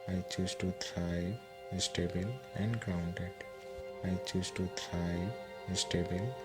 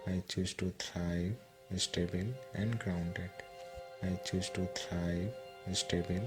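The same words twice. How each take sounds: The two takes are said the same way.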